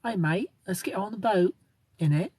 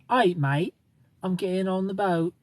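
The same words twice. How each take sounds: First: Higher-pitched mock British; attempted British accent. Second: Put-on Australian accent, pitched up a little. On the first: Shown as a demonstration. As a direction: put on an imperfect British accent. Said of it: "I'll say it in a British accent". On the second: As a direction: play a mock Australian heading aboard. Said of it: "See, that's Australian".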